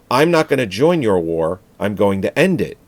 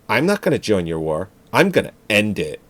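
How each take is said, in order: First: It is said in a plain, neutral voice. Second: It is said in a Valley Girl voice.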